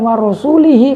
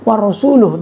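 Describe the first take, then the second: First: The word ends with an i vowel after the l. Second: The word ends with a u vowel after the l. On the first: The messenger is also one Allah is free from. The speaker calls it wrong. "yang benar itu bukan warasulihi" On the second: Allah is free only from the idolaters. The speaker calls it right. "warasuluh dibaca rofa"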